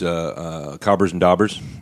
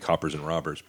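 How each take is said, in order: First: The consonants in both names are garbled. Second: The consonants in both names are clearly pronounced. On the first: This is how a coworker mispronounced it. The speaker calls it wrong. "what did he call? There was Cobbers and Daubers" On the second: This is the machine's actual name. The speaker calls it right. "It was actually Coppers and Robbers"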